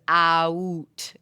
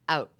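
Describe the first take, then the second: First: The vowel is drawn out into several sounds. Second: The vowel is one short, single sound. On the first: This is how it is said in the new place. "It was like three sounds" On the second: This is how it is said back home. "just the word out was one syllable, one idea, one thing"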